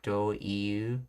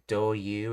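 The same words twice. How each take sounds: First: The second part is pronounced as separate 'i-u' sounds. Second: The second part is pronounced as one 'yu' sound. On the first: "and not do-you" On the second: "in Japanese they often pronounce it as do-you"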